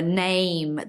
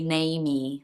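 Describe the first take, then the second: First: The word ends cleanly on the m sound. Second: The word ends with an added 'ee' sound. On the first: The speaker calls it right. "instead of saying a name" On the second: The speaker calls it wrong. "they'll say namey"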